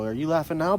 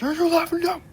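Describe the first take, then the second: First: The line is said calmly and quietly. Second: The line is screamed loudly and wildly. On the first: The speaker calls it right. "I've said it like that" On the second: The speaker calls it wrong. "screamed it, like"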